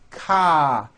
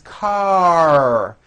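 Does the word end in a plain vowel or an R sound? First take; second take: plain vowel; R sound. First: The word ends on an open vowel without R. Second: The word ends with a strong R sound. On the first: The speaker calls it wrong. "ending with an A vowel, but it's not ka" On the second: The speaker calls it right. "The R needs to be very strong"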